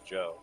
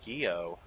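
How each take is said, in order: First: The name is said as one syllable, Joe. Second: The name is said with two syllables, Gee-oh. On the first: The speaker calls it right. "that's obviously Joe" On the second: The speaker calls it wrong. "You think anyone pronounces that wrong? You think anyone goes like"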